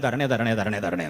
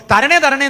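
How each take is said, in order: First: Softer, lower mock mumble of "തരണേ" with falling ends; mock whiny begging. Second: "തരണേ" flung out much higher and louder, falling; mock the endless pleading with a big loud cry; loud mock begging. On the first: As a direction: drone "തരണേ" low and quiet like a tired old habit. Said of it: "എന്നാ, അല്ലേ?". (താഴ്ന്ന ശബ്ദത്തിൽ "തരണേ" എന്ന പരിഹാസ യാചന) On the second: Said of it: "എന്ന് നമ്മൾ ഈ വാതോരാതെ പറയുന്ന". (ഉച്ചത്തിൽ, ഉയർന്ന സ്വരത്തിൽ "തരണേ" എന്ന പരിഹാസ യാചന)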